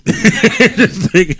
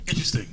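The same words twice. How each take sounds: First: Drawn-out amused interesting; laughing. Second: Said in the usual way. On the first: Real, not acted. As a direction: stretch it out through a laugh. Host laughs at guest's story.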